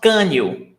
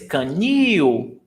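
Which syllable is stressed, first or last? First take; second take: first; last. First: The stress is on the first syllable. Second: The stress is on the last syllable. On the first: The speaker calls it wrong. "It's not canil" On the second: The speaker calls it right. "the stressed syllable is canil"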